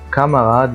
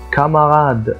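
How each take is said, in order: First: The word starts with a k sound. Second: The word starts with a k sound.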